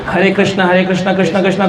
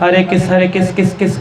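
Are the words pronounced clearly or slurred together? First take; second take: clearly; slurred. First: Each word is pronounced clearly and fully. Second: The words are slurred and clipped short. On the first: The speaker calls it right. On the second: The speaker calls it wrong.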